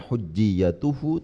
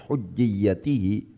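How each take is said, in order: First: The vowel before the final syllable is u. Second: The vowel before the final syllable is i. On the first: The word is in the nominative case. "dibaca rofa" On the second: The word is in the genitive case.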